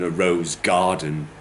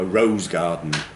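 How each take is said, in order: First: The word garden carries the main stress. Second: The word rose carries the main stress. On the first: "rather than" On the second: "rose has got a lot more stress on it than gar"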